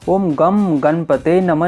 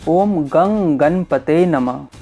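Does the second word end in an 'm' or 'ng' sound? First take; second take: m; ng. First: The second word ends with an 'm' sound. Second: The second word ends with an 'ng' sound. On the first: The speaker calls it wrong. "ये जो गम है इसको नहीं बोलना है" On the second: The speaker calls it right. "ये बोलना है"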